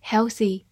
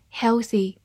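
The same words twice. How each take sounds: The two takes are said the same way.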